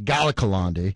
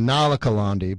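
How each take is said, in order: First: The name starts with a G sound. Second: The name starts with an N sound. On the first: The speaker calls it right. "but it's really Galakalandi" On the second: The speaker calls it wrong. "So I was saying Nalakalandi"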